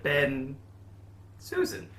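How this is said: A long pause separates the two names. "Not that long a hyphen, just a shorter one"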